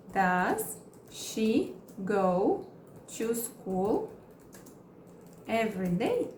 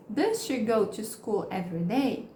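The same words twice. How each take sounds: First: Very slow, chunked with pauses; slow broken-up teaching read; slow model question. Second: Said in the usual way. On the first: Shown as a demonstration. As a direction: stretch it out for learners. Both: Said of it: "Agora eu quero perguntar".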